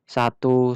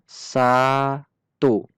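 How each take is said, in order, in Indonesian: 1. Kata itu diucapkan cepat dan sigap. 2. Kata itu diucapkan lambat dan ditarik panjang. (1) "dengan cara cepat" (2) "saya mengucapkan satu dengan lambat"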